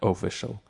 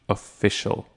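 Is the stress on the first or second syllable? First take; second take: first; second. First: The stress is on the first syllable. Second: The stress is on the second syllable. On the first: The speaker calls it wrong. "She pronounces the O as having the emphasis" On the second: The speaker calls it right. "the emphasis should be on the fish"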